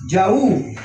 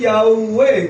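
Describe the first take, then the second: First: The name ends on an 'oo' vowel. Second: The name ends with an added 'e' vowel. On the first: The speaker calls it right. "Esto se pronuncia Yahú" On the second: The speaker calls it wrong. "dándole terminación a la Hei como si fuese una E"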